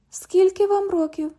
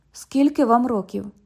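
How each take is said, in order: First: Much higher, teasing repeat of the question; mocking echo. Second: Said in the usual way. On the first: London echoes the cop's question, high and teasing. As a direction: echo his question to mock him.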